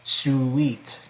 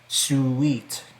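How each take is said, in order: First: The word is said as two syllables. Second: The word is said as two syllables.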